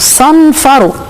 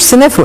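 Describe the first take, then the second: First: It starts with a heavy, emphatic s sound. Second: It starts with a plain, light s sound. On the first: The speaker calls it right. "اسمه صنفرو" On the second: The speaker calls it wrong. "ما اسموش سنفرو"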